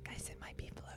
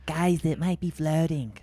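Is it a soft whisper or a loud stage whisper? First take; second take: soft whisper; stage whisper. First: It is whispered softly, close to the microphone. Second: It is a louder, projected stage whisper.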